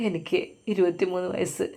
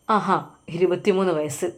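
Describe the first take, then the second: First: A soft, beaten-down answer, much quieter; timid reply. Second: A hint of a sneering policeman repeating it back; mocking echo. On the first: Arrested young man answers the policeman, softly and meekly. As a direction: murmur it like a frightened young man. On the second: Policeman mocks the arrested young man's age, lightly scornful. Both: A narrator's reading.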